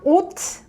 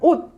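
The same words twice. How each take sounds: First: The word ends with an audible s sound. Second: The word ends with a stopped, unreleased t. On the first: The speaker calls it wrong. "you shouldn't pronounce it us" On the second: The speaker calls it right. "You kind of stop before making that t sound"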